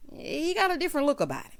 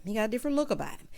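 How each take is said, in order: First: Slow, weighty first take; savoring the thought; drawn out. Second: Quick aside. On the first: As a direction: lean on got, let it fall. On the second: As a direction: toss it off fast under the breath. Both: Shown as a demonstration. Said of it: "repeated line".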